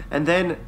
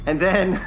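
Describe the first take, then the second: No difference in how they are said.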